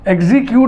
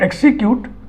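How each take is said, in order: First: The middle consonants are sounded as 'gz'. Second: The middle consonants are sounded as 'ks'.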